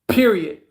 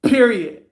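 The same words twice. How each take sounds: First: It is said plainly, without extra force. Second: It is said forcefully, with strong emphasis.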